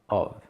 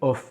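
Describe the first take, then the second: First: The word ends with a light V sound. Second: The word ends with a hard F sound. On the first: The speaker calls it right. "c'est of, c'est un V" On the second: The speaker calls it wrong. "on l'entend comme ça, c'est off"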